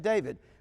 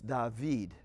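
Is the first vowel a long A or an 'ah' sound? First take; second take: long A; ah. First: The first vowel is a long A sound. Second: The first vowel is an open 'ah' sound. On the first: This is the usual English way. "we say David" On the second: This keeps the older Hebrew and French roots. "in Louisiana, we often say David"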